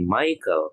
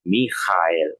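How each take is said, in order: First: The name is said in a non-German way. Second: The name is said in the German way. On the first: The speaker calls it wrong. "Jangan jadi Michael" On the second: The speaker calls it right. "tapi di bahasa Jerman menjadi Michael"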